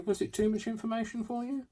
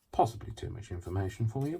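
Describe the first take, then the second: First: Very high, squeaky teasing question; high mock question. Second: Said in the usual way. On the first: Crafter teasing viewers about oversharing, very high mock voice. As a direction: ask it way up in a tiny high voice.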